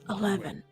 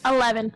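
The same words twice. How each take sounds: First: It is said in a put-on character voice. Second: It is said in a natural, ordinary voice.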